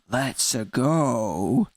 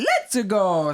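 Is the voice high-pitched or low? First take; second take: low; high-pitched. First: It is said in a lower, dropped voice. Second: It is said in a high, jolly voice.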